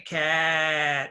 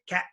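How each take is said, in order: First: The vowel is drawn out long. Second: The vowel is short and clipped. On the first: The speaker calls it wrong. "We don't say cat" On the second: The speaker calls it right. "cat is short"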